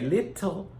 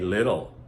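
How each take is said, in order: First: The middle T is a strong, clear T. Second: The middle T is a soft, quick flap. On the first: The speaker calls it wrong. "some people will try to tell you we say little" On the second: The speaker calls it right. "most Americans say little"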